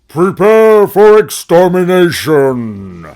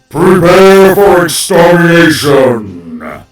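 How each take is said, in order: First: The voice is dry, with no reverb. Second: The voice has reverb added to it. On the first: The speaker calls it wrong. "I didn't have the reverb in my voice" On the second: The speaker calls it right. "Let me see if I can fix this"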